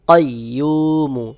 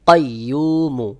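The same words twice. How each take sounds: No difference in how they are said.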